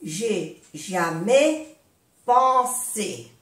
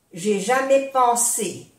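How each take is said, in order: First: "J'ai jamais pensé" slowly, with pauses between pieces; slow breakdown. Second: Said in the usual way. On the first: Shown as a demonstration. Teacher modelling for learners, "J'ai jamais pensé" slowly in pieces.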